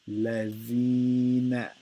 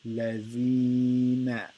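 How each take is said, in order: No difference in how they are said.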